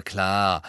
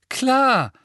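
First: Low, sarcastic drawn-out klar. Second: Bitter, much higher and louder. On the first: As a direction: sneer it sarcastically. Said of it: "erwiderte Ron sarkastisch". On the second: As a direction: spit it out bitterly. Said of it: "sagte Ron bitter". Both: Acted.

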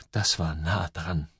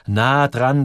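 First: Leise, tief und langsam gedacht; in Gedanken. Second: „Nah dran“ lauter und mit Nachdruck; nachdrückliche Wiederholung. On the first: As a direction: sprich es gedämpft zu dir selbst. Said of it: "denkt er". (leiser innerer Monolog, langsam) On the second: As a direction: heb „Nah dran“ kräftig hervor. Gedanke wird nachdrücklich wiederholt. („Nah dran“ betont, mit mehr Kraft) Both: A narrator's reading.

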